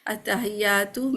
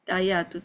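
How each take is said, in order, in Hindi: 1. h और y की आवाज़ साफ़ बोली जाती है। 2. h और y की आवाज़ छूट जाती है। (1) "यानी थोड़ा सा जोर देंगे।" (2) "इसमें हा भी नहीं है या भी नहीं"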